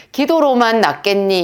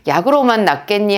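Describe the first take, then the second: First: 기도로만을 높여 강조; "기도로만"에 힘을 실어 말하기; stress on 기도로만. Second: 약으로만을 높여 강조; "약으로만"에 힘을 실어 말하기; stress on 약으로만. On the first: ("기도로만"을 강조해서) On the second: ("약으로만"을 강조해서) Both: Shown as a demonstration. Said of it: "뉘앙스가 완전히 다른 거예요".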